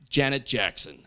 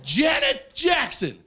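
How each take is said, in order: First: Said in the usual way. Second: High, drawn-out excited disbelief; mock starstruck shout. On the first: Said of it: "why would you say it like that". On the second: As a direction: exclaim the name slowly, way up high. Starstruck reaction to the name.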